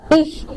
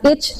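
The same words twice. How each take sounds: First: ICH with a fricative "kh" ending, "ikh". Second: ICH pronounced like English "itch"; mispronounced ch. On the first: Teacher recalling last week's rule, "ikh" for "Ich". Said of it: "bacanya seperti K H". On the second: Teacher correcting the class, wrong "itch" for "ich". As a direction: put a hard "tch" on the end of "ich". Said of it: "Jangan ich". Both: Shown as a demonstration.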